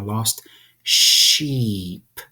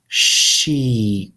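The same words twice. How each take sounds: First: "sheep" drawn out and falling; slow demo. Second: "Sheep" stretched and louder, falling; over-articulate "Sheep" so they see your mouth; said slowly. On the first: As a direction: stretch "sheep" for the class. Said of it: "Say it slowly". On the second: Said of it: "Say it slowly. Watch my mouth". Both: Shown as a demonstration.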